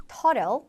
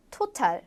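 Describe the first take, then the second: First: American flap T in total; 미국식 total; American pronunciation. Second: Total with a clear, crisp T; British total, T fully sounded; 영국식 total; British pronunciation. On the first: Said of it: "미국 영어에서는 total". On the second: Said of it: "영국 영어에서는 total". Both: Shown as a demonstration.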